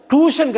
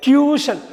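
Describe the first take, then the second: First: "டியூஷன்" as "too-shun", no y-glide; wrong pronunciation. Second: "டியூஷன்" as "tyoo-shun", high first syllable; correct pronunciation. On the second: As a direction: pitch up "டியூஷன்" with a y-glide after t. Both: Shown as a demonstration. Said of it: "டியூஷன் கிடையாது".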